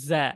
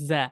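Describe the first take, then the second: First: The consonant is pressed firmly with little air. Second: The same.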